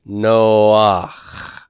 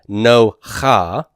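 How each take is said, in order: First: A brief a glides in before the throat sound. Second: The a vowel comes after the throat sound. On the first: The speaker calls it right. "it's noach" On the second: The speaker calls it wrong. "It's not no cha"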